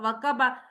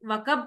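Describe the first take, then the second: First: The word ends with a final vowel sound. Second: The word ends on a consonant, final vowel dropped. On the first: This is the word's full underlying form. "लेकिन है तो वकबा" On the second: This is how it is read when pausing at the end. "वकब तो हम पढ़ रहे हैं ना, उसको साइलेंट कर रहे हैं"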